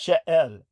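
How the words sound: It is said with a French pronunciation. "so the French pronunciation"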